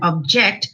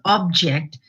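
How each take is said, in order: First: The stress is on the second syllable. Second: The stress is on the first syllable. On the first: It is a verb. "object as a verb" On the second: It is a noun. "Here it falls on the first syllable"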